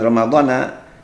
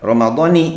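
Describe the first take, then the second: First: The word ends with an 'a' vowel. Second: The word ends with an 'i' vowel. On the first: The speaker calls it wrong. "bukan Ramadhana" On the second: The speaker calls it right. "yang benar mengucapkannya Ramadhani"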